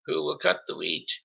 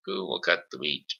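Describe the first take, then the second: First: High, bright-pitched call across the yard; brisk call. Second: Said in the usual way. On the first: A narrator's reading. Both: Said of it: "calling briskly".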